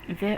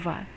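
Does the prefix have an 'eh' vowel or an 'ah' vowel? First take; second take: eh; ah. First: The prefix has an 'eh' vowel. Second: The prefix has an 'ah' vowel. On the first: "ve or va" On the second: "ve or va"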